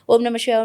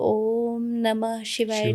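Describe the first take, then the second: First: It is said quickly and with energy. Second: It is said slowly and in a relaxed way. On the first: It is for building power or energy. "उसे जल्दी जल्दी बोलना चाहता है" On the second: It is for calm meditation. "बहुत ही relax होकर आप बोलोगे"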